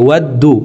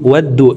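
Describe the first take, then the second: The two takes are said the same way.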